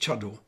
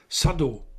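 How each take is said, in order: First: The word begins with a 'cha' sound. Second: The word begins with a 'sa' sound. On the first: This mixes two kinds of reading, as tea people do. The speaker calls it wrong. "nicht Chado. Nur Teeleute sagen Chado" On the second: This is the Chinese-based reading of both characters. The speaker calls it right. "das Zeug heißt Sado"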